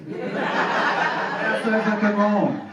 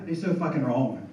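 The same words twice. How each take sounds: First: Slow, laughing repeat of "so fucking wrong" with "so" held long; laughing, drawn out. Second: Said in the usual way. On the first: Real, not acted. Comic laughing at the audience over ancestry results, slow and drawn out. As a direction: stretch "so" out through a laugh.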